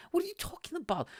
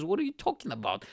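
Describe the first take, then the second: First: Much higher, baffled disbelief; incredulous. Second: Said in the usual way. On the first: Retold or imitated. Retelling a date's bill confusion, incredulous high pitch. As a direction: throw the question up in total disbelief. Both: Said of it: "It's like".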